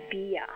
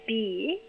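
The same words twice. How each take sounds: First: "beer" with a shorter, tighter Perth vowel. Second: "beer" with a long drawn Sydney ear vowel, slow. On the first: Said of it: "who would be more likely to say". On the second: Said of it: "think about the vowel sound". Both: Shown as a demonstration.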